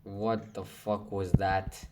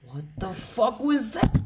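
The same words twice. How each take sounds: First: Said in the usual way. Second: High-pitched and loud, voice jumping up in disbelief; screechy cry of disbelief; shocked shriek. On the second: Real, not acted. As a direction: yelp it out like you can't believe it. Shocked by another sudden hit.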